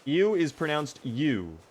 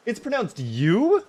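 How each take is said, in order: First: Said in the usual way. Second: Slow, high disbelief, "you" swooping up; incredulous question. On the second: Real, not acted. Streamer learns how ewe is said, incredulous.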